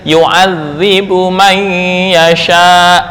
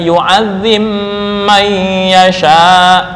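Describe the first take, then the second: First: A separate b sound is heard before man. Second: The b merges into a held nasal m.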